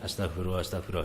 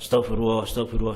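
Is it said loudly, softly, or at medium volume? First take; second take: medium; loudly. First: It is said at a moderate volume. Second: It is said too loudly.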